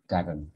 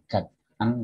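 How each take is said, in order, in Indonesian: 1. Kedua kata itu digandeng menjadi satu. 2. Kedua kata itu diucapkan terpisah. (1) "tapi garen" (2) "itu bukan got an"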